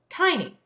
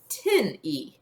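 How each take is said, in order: First: The first vowel is a long I sound. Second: The first vowel is a short I sound. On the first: The speaker calls it right. "my I is going to be long" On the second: The speaker calls it wrong. "which is not a word that we know"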